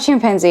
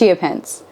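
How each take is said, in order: First: It is said like the word chimpanzee. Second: It is said as chee-ah-pen-say. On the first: The speaker calls it wrong. "it's not chimpanzee" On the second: The speaker calls it right. "it's chiapense"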